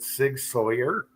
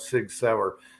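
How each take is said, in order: First: The second word sounds like 'sawyer'. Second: The second word sounds like 'sour'.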